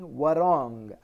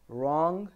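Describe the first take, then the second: First: A W sound is pronounced before the R. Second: The word starts directly with the R sound. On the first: The speaker calls it wrong. "So I'm not saying warong" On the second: The speaker calls it right. "I'm just saying wrong"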